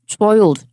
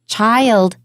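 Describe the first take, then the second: First: The first sound is made with tightly rounded lips. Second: The first sound is made with open, square lips. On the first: The speaker calls it wrong. "把它弄得太圆，好像亲嘴那么圆" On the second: The speaker calls it right. "一个方形的嘴型比较大的"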